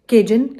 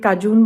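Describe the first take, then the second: First: The first vowel sounds like 'ay', ending 'jun'. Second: The first vowel sounds like 'ah', ending 'joon'. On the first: The speaker calls it right. "That is केजन" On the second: The speaker calls it wrong. "मैंने last video में काजून बोला हुआ है"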